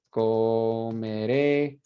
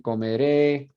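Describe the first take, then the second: First: Comeré drawn out very slowly, syllable by syllable; slow model word. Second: Said in the usual way. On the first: Shown as a demonstration. Teacher models comeré very slowly for students. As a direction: stretch out comeré slowly so the class hears each syllable. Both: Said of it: "Tenemos hablaré".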